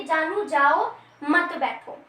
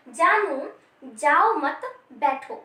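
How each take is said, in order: First: Slow जानू जाओ, a break, then मत बैठो together; pause before मत. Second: Slow जानू, जाओ मत, then a break before बैठो; group जाओ with मत, set बैठो apart; pause after मत. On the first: Teacher voicing what the listener misheard, pause before मत. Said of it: "कि तुम बैठो मत". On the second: Teacher voicing what the speaker meant, pause after मत. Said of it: "वो उसको बैठने को बोल रहा है". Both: Shown as a demonstration.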